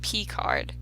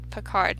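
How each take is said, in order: First: The name begins like the letter 'P'. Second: The name begins with a short 'pih' sound. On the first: The speaker calls it wrong. "like not P-card" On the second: The speaker calls it right. "I thought it was just Picard"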